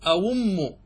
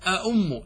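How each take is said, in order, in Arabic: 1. الحرف الثاني صوت واو. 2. الحرف الثاني همزة. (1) "أبدلت فقلت أأم، تبدل الهمزة الثانية إلى واو" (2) "حققت الهمزتين فقلت أأم، تأتي بهمزتين"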